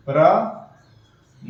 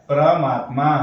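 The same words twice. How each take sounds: First: परमात्मा stretched out slowly, syllable by syllable; slow teacher's demo of परमात्मा; drawn-out syllables. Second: Said in the usual way. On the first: Shown as a demonstration. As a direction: draw out each part of परमात्मा for the class. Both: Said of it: "तो क्या बन गया".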